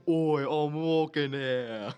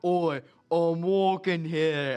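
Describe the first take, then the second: First: Put-on slow, louder New York accent; New York tough guy. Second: Put-on loud, slow New York street-tough accent; New York tough guy. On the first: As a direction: stretch it out like an offended street tough. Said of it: "this guy just saying". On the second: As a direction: bark it like a New Yorker shoving past, drawn out. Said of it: "he bumps shoulders like".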